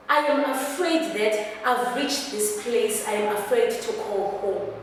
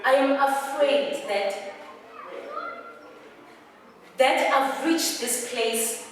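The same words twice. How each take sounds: First: "I am afraid" said straight on, without pauses; run-through monologue delivery. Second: "I am afraid" broken off with long pauses; halting confession. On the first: Actor telling Mama she is afraid, unbroken delivery. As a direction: run the confession together in one stretch. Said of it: "take a deep breath". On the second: Actor confessing fear to Mama, halting phrase by phrase. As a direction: dig in, pausing after each phrase. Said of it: "you are digging in". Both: Acted.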